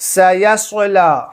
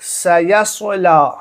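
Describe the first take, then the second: No difference in how they are said.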